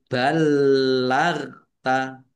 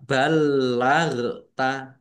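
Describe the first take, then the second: First: Slow ballagta, held l and no bounce on ghain; unbounced ghain in ballagta. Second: Ballagta drawn out, ghain bouncing; wrongly bounced ghain in ballagta. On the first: Teacher corrects the mistake, ballagta without bouncing the ghain. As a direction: keep the ghain still in ballagta. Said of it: "Tapi ballagta". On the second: Teacher demonstrates what not to do, ghain bounced in ballagta. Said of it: "jangan dibaca". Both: Shown as a demonstration.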